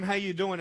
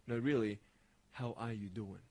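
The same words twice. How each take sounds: First: Said in the usual way. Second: Low, soft and earnest check-in; sincere concern. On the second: Acted. Checking on a friend who says okay, soft and sincere. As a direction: ask it gently, as if you truly mean it. Sincere follow-up to casual question.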